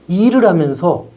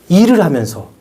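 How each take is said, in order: No difference in how they are said.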